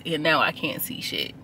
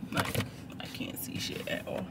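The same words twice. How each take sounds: First: Said in the usual way. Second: Voiceless annoyed whisper. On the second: Real, not acted. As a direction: mutter it in a whisper. Sun glaring, whispered repeat.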